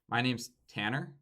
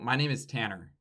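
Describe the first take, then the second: First: The pitch rises at the end, like a comma. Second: The pitch falls at the end, like a full stop. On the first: The speaker is trying not to be interrupted. The speaker calls it wrong. "what you're doing is a comma because you're trying not to be interrupted" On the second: The sentence is complete. The speaker calls it right. "make it so that it is the end of the sentence"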